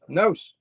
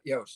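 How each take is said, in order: First: The syllable begins with a plain N sound. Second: The syllable begins with a Y-like sound. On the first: The speaker calls it right. "Nos, not Yos" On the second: The speaker calls it wrong. "not Yos"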